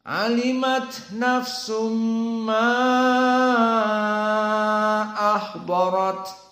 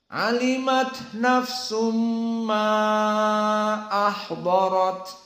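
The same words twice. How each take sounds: First: The vowel in 'ma' is held very long. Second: The vowel in 'ma' is held moderately long. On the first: This follows the reading with full elongation. "dibaca dalam keadaan panjang, isba" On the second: This follows the majority reading with medium elongation. "Adapun jumhur maka membaca tawassut"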